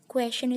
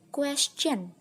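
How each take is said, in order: First: The middle has no CH sound. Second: The middle has a CH sound. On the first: The speaker calls it wrong. "masih kurang tepat" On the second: The speaker calls it right. "seperti ada sisipan huruf C-nya"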